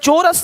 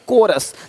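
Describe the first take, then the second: First: The word begins with a ch sound. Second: The word begins with a k sound. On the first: The speaker calls it wrong. "चोरस नहीं" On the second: The speaker calls it right.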